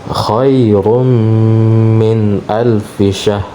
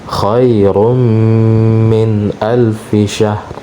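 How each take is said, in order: No difference in how they are said.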